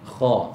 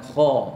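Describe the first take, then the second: First: A long vowel ends in a glottal stop. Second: A short open vowel ends the word. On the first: This is the name of the letter. The speaker calls it right. "nama yang betul" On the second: This is the letter read with a fathah. The speaker calls it wrong. "Bukan kha. ... itu adalah sebutan bagi kha yang baris dia fathah"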